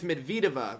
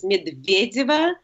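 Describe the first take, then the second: First: Medvedeva as "med-VEE-deva", hard v; second-syllable stress. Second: Slow model Medvedeva, stressed on "VYE"; Russian pronunciation. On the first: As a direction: stress the "ve" in Medvedeva without a glide. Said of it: "The emphasis is on the second syllable". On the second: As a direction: put a little y-glide after the v in Medvedeva. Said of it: "little glide J, and then E". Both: Shown as a demonstration.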